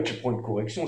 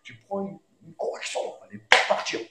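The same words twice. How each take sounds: First: Said in the usual way. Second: Hushed, breathy threat of punishment; half-whispered stern parent. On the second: Retold or imitated. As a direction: warn the child under your breath. Parent's stern warning repeated.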